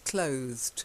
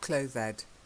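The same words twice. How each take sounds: First: The final E is silent, one syllable. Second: The E is sounded, giving two syllables. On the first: The speaker calls it right. "It's just a silent E" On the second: The speaker calls it wrong. "not clothed"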